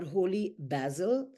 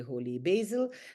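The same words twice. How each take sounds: First: Basil is said in a non-American way. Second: Basil is said the American way. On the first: "Some people pronounce it as that" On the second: "in American English, we say holy basil"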